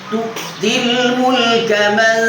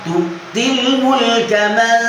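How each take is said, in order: The two takes are said the same way.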